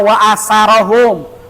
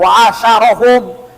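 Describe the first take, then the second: First: The middle consonant is a plain s sound. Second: The middle consonant is a sh sound. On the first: "Jangan dibaca wa asarahum" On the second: "apalagi dibaca wa asyarahum, bentuknya beda"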